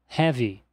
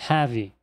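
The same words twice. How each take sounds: Both takes have the same delivery.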